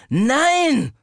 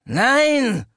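First: High loud angry Nein, growled. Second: High loud cry of Nein; shouted no. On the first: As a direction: snarl Nein again in fury. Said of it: "wiederholte ich wütend, knurrend". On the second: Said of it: "rief ich". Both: A narrator's reading.

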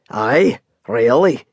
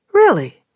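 First: Dry Scottish confirmation, lightly voiced; Scottish cab driver. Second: High, louder surprised question. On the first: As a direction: settle it plainly like an old Scot. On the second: Acted. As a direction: blurt it out in disbelief. Surprised at redhead news.

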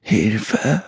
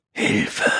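First: Understated screech with last strength; a spent, strained shriek, held back in volume; weak shriek. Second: Breathless, voiceless gasp; gasped cry for help. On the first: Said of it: "kreischte sie mit letzter Kraft". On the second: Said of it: "keuchte sie". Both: A narrator's reading.

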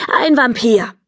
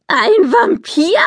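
First: Said in the usual way. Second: Hoch und gedehnt ungläubig nachgefragt. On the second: A narrator's reading. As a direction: Ein Vampir? hoch und langsam fragen, fassungslos. Polly kann es nicht glauben. (Polly wiederholt ungläubig die Worte der Mutter, hoch und gedehnt)

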